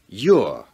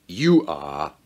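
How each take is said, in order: First: It is said as one contracted syllable. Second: It is said as two full, separate words. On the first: The speaker calls it right. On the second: The speaker calls it wrong. "kita biasanya tidak mengatakan"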